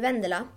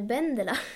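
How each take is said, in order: First: The name starts with a V sound. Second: The name starts with a B sound. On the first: "jag heter ju Vendela" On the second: "på spanska blir det Vendela"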